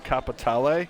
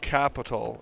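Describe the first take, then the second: First: The word ends with an added final vowel. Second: The word ends plainly without an extra vowel. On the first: The speaker calls it right. "It has an e at the end of it, so at least the way Rockstar pronounces it is it's called Capitale" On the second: The speaker calls it wrong. "It's not called capital"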